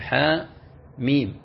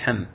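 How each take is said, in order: First: Each letter name is spoken separately. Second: The letters are joined into one word. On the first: The speaker calls it right. "تنطق حاء وحدها ثم ميم وحدها" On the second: The speaker calls it wrong. "ولا تقول حم"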